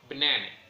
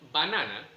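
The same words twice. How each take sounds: First: The unstressed vowels are weak schwa sounds. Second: Every vowel is a full Spanish a. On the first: "English banana" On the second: "Spanish banana"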